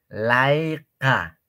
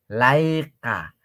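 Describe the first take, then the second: Both takes have the same delivery.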